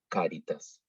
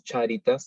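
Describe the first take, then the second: First: The word begins with a k sound. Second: The word begins with a ch sound. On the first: The speaker calls it right. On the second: The speaker calls it wrong. "no decimos"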